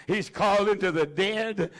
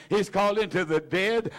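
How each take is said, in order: Both takes have the same delivery.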